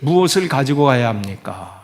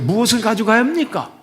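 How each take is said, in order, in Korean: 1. 질문의 끝에서 음이 내려갑니다. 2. 질문의 끝에서 음이 올라갑니다. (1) "이렇게 내리면 마치 신앙생활 잘하는 그런 분위기인데요" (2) "이런 분위기, 이런 뉘앙스. 그러니까 맞죠"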